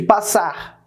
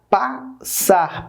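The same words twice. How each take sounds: First: Said in the usual way. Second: "Passar" split as pas, sar; separado em sílabas. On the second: Shown as a demonstration. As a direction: say "Passar" in two detached syllables, pas and sar. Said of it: "separa as sílabas". ("Passar" pausado: pas, sar)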